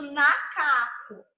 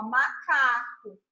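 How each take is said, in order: First: "nacaco" with n in place of the m of macaco; misspelling read out. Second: Said in the usual way. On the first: Shown as a demonstration. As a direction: start "nacaco" on a clear n sound. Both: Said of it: "Tava escrito nacaco".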